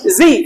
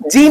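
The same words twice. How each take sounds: First: जी with a buzzing z, "zee"; Z with nukta. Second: जी with a hard j, "jee"; wrong Z name. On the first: Teacher correcting the letter name Z, buzzed "zee". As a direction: make जी a hissing, buzzing "zee". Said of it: "नुक्ता के साथ में". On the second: Teacher showing the mistake in Z, hard "jee". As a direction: say जी with a j instead of z. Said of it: "जी नहीं". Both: Shown as a demonstration.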